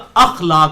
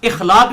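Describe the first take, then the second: First: The word begins with an 'a' vowel. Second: The word begins with an 'i' vowel. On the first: The speaker calls it right. "अखलाक होता है" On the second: The speaker calls it wrong. "ये लफ्ज इखलाक नहीं होता"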